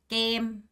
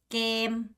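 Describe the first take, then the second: No difference in how they are said.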